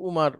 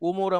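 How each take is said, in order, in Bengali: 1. নামটি মূল আরবি উচ্চারণে বলা হচ্ছে। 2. নামটি স্থানীয় বাংলা উচ্চারণে বলা হচ্ছে। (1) "কিন্তু উমার বলার চেষ্টা করব" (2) "উমর আমাদের দেশীয় দেশীয় ভাষা"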